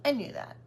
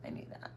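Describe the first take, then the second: First: Said in the usual way. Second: Much softer muttered aside; quiet aside. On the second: Real, not acted. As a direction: mutter it to yourself. Repeats line as quiet aside.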